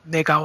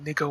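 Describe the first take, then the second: First: The word is pronounced like the Korean word nega. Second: The word is pronounced like the English slang word. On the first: It is a harmless Korean word. "I was saying" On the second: It is the offensive English slur. "I wasn't saying"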